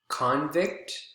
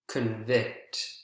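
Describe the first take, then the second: First: The stress is on the first syllable. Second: The stress is on the second syllable. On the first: It is used as a noun. "first syllable is the strongest in nouns" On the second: It is used as a verb. "Second syllable is the strongest in verbs"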